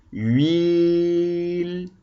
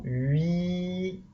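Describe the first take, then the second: First: "huile" held very long in one unbroken syllable; one oral syllable. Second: "huile" split in two, hui... le, softly; written syllables. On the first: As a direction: draw out "huile" on a single opening of the mouth. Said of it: "combien de fois on ouvre la bouche". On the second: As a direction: read "huile" as a long hui, then a separate le. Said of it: "vous aider à lire un mot". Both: Shown as a demonstration.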